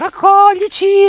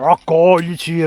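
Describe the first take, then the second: First: It is said in a tiny, cute put-on voice. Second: It is said in a fuller, different put-on voice. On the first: Ordinary chestnuts are calling to be picked. "con la vocina castagnosa" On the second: Larger marroni chestnuts are calling to be picked. "Se fossero dei marroni"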